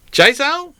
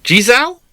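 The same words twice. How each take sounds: First: Jizao said as chay-zell, high and rising; second try at the name. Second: High, rising try at Jizao; sounding out Jizao as a question; puzzled try at a name. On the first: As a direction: try Jizao another way, questioning. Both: Shown as a demonstration. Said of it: "J Y Z O W?".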